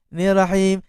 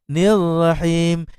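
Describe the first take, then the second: First: The doubled r sound is cut short. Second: The doubled r sound is held long. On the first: The speaker calls it wrong. "Dia buang sabdu" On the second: The speaker calls it right. "Sepatutnya nir rahim"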